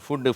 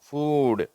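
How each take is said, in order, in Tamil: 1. உயிர் ஒலி குறுகியது, 't' ஒலி இரட்டையாக உள்ளது. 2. உயிர் ஒலி நீளமானது, 'd' ஒலி ஒன்றாக உள்ளது. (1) "நம்ம உணவுன்ற வார்த்தையை அநேகர் தப்பாக தான் உச்சரிக்கிறாங்க. ஃபுட்டு ஃபுட்டுன்றாங்க" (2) "அதை ஃபூடுன்னு சொல்லணும்"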